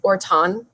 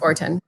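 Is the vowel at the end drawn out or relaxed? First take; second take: drawn out; relaxed. First: The final vowel is clearly over-enunciated. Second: The final vowel is said plainly and relaxed. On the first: "some people over enunciate the O at the end" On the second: "my family just says Orton"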